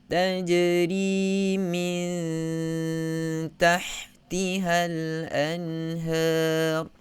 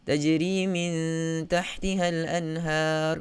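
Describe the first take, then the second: First: It is recited slowly with a long nasal hum. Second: It is recited quickly with a shorter nasal hum. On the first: "Katakan kita baca dengan uh, tahqiq" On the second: "Kalau kita baca dengan hadar"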